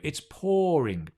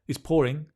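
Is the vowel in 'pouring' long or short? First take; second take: long; short. First: The vowel in pouring is long and exaggerated. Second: The vowel in pouring is short and plain. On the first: The speaker calls it right. "That's a lovely long vowel. Remember to exaggerate" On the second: The speaker calls it wrong. "Don't say it's pouring"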